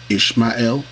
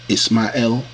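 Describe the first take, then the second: First: The name has a 'sh' sound. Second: The name has an 's' sound. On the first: This is the Hebrew form. "Ishmael for the Hebrew" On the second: This is the Arabic form. "Ismael for the Arabic"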